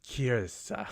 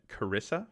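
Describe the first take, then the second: First: No vowel sits between the R and S. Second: An extra vowel sits between the R and S. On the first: The speaker calls it right. "There's no I snuck in there between the R and the two S's, so it's really like a Kirsa" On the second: The speaker calls it wrong. "I've been pronouncing it Carissa for the longest time, and it's it's not that"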